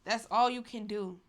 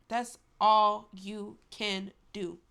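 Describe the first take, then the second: First: Said in the usual way. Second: "all" stretched long and loud, words slowed right down; final word, slowed and pressed; slow, drawn-out emphasis. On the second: Shown as a demonstration. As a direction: lean hard on "all" and drag the line out. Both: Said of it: "repeated for emphasis".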